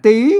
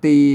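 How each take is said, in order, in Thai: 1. คำว่า "ตี" ออกเสียงเป็นเสียงจัตวา 2. คำว่า "ตี" ออกเสียงเป็นเสียงสามัญ (1) "ตีต้องอ่านออกเสียงจัตวา" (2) "อ่านภาษาไทยมันอ่านตีเห็นไหมมันเสียงสามัญ"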